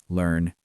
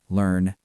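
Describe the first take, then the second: The two takes are said the same way.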